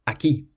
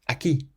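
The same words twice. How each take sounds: Both takes have the same delivery.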